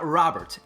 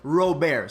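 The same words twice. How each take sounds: First: The name is said with English pronunciation. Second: The name is said with native pronunciation. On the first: The speaker calls it wrong. "it is not Robert" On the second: The speaker calls it right. "In his home country, it is pronounced Robert"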